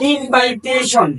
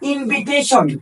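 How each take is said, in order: First: The second syllable has an 'eye' vowel. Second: The second syllable has a short 'ih' vowel. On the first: The speaker calls it wrong. "এই ইনভাইটেশন একটা ভুল উচ্চারণ।" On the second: The speaker calls it right. "এই ওয়ার্ডটির সঠিক উচ্চারণ হলো ইনভিটেশন।"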